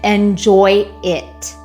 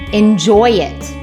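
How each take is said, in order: First: A glottal stop separates the two words. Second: A slight y sound links the two words. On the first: "I had to separate those words with a glottal stop" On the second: "let's link them with a Y"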